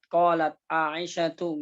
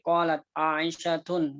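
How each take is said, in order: First: The name ends in a plain vowel, without n. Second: The name ends with an added n sound. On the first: The speaker calls it right. "ya qalat qalat Aisyatu" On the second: The speaker calls it wrong. "nggak boleh"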